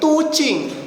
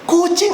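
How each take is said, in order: First: The word begins with a t sound. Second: The word begins with a k sound. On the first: A child with a phonemic disorder distorts the sound. The speaker calls it wrong. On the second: This is the intended, correct form. The speaker calls it right.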